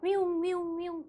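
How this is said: The siren sound is imitated at a high pitch. The sound source is approaching. "앞쪽에서는 고음으로 들리다가"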